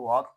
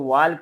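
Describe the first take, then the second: First: The L sound is silent before the K. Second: The L sound is pronounced before the K. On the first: The speaker calls it right. "बल्कि इसको वॉक पढ़ते हैं" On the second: The speaker calls it wrong. "इसको वॉल्क नहीं पढ़ना"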